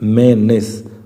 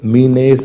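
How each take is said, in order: First: The first vowel is a short 'eh' sound. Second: The first vowel is a long 'ee' sound. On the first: The speaker calls it right. "क्या ये मेनेस" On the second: The speaker calls it wrong. "ये मीनेस नहीं है"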